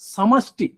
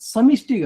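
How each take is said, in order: First: The second syllable has an 'a' vowel. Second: The second syllable has an 'i' vowel. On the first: The speaker calls it right. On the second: The speaker calls it wrong. "సమిష్టి కాదు"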